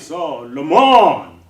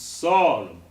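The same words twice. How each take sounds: First: The first syllable does not carry the stress. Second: The first syllable carries the strongest stress. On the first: The speaker calls it wrong. "you'll be actually misaccentuating the word" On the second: The speaker calls it right. "so is always on the downbeat, or rather a stronger beat"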